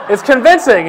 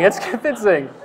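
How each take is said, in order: First: "It's convincing" louder and higher, stress on "convincing"; laughing emphasis. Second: Said in the usual way. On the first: Real, not acted.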